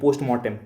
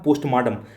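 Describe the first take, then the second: First: The second part sounds like mortem. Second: The second part sounds like martam. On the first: The speaker calls it right. "मार्टम नहीं होता, पोस्टमार्टम होता है, M O R T E M" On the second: The speaker calls it wrong. "ऐसे सुनता था"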